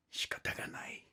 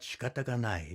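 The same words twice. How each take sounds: First: Resigned whisper of shikata ga nai, much softer. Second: Said in the usual way. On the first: Acted. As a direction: breathe shikata ga nai in a hush. Resigned reply through wall.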